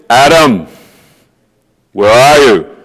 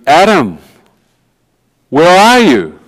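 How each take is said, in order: First: The call is spoken in a harsh, threatening tone. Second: The call is spoken in a warm, loving tone. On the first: The caller seems threatening to the hearer. "in his mind it's" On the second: The caller is reaching out in love. "A voice of love"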